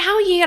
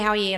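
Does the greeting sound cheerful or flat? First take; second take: cheerful; flat. First: It is said in a cheerful, happy tone. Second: It is said in a flat, less happy tone.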